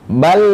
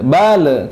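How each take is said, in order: First: The final l is held with the tongue raised. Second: The final l is released with a bounce. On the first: The speaker calls it right. "lidah kita naik ke terangkat ke atas" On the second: The speaker calls it wrong. "Kalau bal itu memantul"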